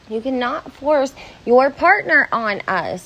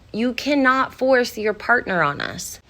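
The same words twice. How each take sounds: First: It is said louder, with more force. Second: It is said at normal, softer volume.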